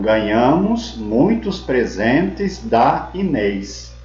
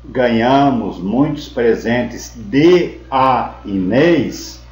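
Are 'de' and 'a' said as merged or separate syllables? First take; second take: merged; separate. First: De and a merge into one syllable. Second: De and a are said as separate syllables. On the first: The speaker calls it right. "a gente faz a união do de mais o a, fica da" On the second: The speaker calls it wrong. "Em vez de falar"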